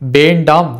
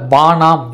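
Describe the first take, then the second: First: The word is said in its full form. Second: The nd cluster is reduced to n. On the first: This is the careful traditional pronunciation. "முறையாக ஒலிப்பு செய்வார்கள்" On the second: This is how other regions say it. "சில பகுதிகளில் வானாம் என்றும்"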